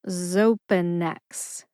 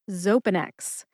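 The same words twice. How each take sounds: First: The word is said slowly and drawn out. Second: The word is said at a normal pace.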